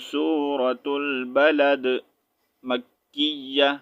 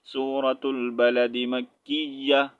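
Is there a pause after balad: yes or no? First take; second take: yes; no. First: There is a stop after balad. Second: It is said in one breath without pause.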